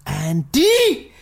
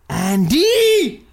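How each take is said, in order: First: Drawn-out mystical call of the name Andy, a bit higher; stage psychic calling Andy from the beyond. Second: Andy called out higher and louder, long and held; stage psychic's big drawn-out call of Andy. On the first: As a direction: summon the name like a stage medium, long and sung. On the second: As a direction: belt the name like a stage medium reaching the spirits. Fake psychic calling out name. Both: Pretend.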